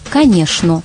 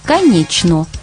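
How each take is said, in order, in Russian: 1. Среднее сочетание звучит как 'shn'. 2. Среднее сочетание звучит как 'chn'. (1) "а в Москве «шн»" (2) "В Питере «чн» ... произносится так же, как пишется"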